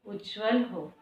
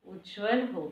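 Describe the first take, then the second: No difference in how they are said.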